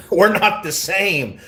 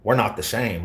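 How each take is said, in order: First: "We're not the same" stretched slow and high with a laugh; laughing mock emphasis. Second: Said in the usual way. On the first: Real, not acted. Streamer repeats his comeback, laughing.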